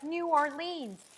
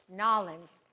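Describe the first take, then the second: First: The name is said in full standard form. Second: The name is squeezed into two syllables locally. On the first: "People are like" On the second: "pronounce it in a New Orleans accent"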